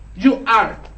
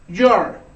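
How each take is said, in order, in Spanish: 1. Ambas palabras se dicen completas y por separado. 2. Las dos palabras se unen en una sola sílaba.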